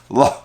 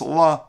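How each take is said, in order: First: The word ends with an audible guttural h. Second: The word ends on the vowel, no h. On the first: "you pronounce the Hey in some way with a more of a maybe a guttural sound" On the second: "it's just La... you're not pronouncing the Hey"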